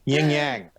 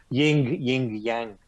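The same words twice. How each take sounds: First: "Yin yang" with the G's barely sounded; soft final G. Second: "ying, yang" with every final G hit hard. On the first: Shown as a demonstration. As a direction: let the G ending "yang" melt into the nasal. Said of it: "We don't hit the G's very hard". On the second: Retold or imitated. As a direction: punch the G ending "ying" and "yang". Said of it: "you'll pronounce the G's".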